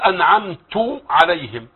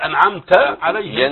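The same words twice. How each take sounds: First: The verb ends in a u vowel. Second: The verb ends in an a vowel. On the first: The speaker calls it wrong. "اللحن الجلي الذي يغير المعنى فيقول أنعمت عليهم" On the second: The speaker calls it right. "بدل أنعمت عليهم"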